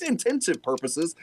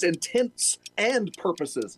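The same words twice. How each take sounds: First: "intensive purposes" run together as in-TEN-sive; "intensive" in place of intents and; wrong phrase. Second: "intense and purposes" pulled apart slowly; slow correction, each word of "intense and purposes" distinct; corrected phrase. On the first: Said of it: "not intensive purposes". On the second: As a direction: separate "intense" and "and" slowly and deliberately. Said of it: "like intensive". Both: Shown as a demonstration.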